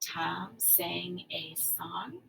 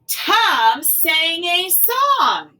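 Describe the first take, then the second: First: It is said with a rise at the end. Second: It is said loudly with excitement. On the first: It asks something. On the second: It expresses excitement.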